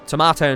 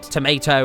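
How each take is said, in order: First: It is said with a British pronunciation. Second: It is said with an American pronunciation. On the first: This is the form the speaker insists on. The speaker calls it right. "I'm just an Englishman that's come over here to correct" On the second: This is the form being corrected. The speaker calls it wrong. "not tomato"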